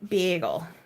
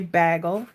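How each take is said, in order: First: It is said in a strong Minnesotan accent. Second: It is said in the speaker's milder accent.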